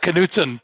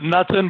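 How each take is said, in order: First: The name is said the Midwestern way. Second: The name is said the common non-Midwestern way. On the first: The speaker calls it right. "but it really is uh, Knutson" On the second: The speaker calls it wrong. "Everybody outside of the Midwest pronounces it Knutson"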